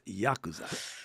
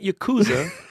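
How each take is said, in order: First: It is said with a Japanese-style pronunciation. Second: It is said with an American-style pronunciation. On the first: The speaker calls it right. "it's Yakuza" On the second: The speaker calls it wrong. "It's not Yakuza ... Yakuza is Americans that can't talk"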